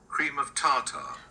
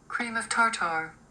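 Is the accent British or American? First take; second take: British; American. First: It is said in a British accent. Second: It is said in an American accent.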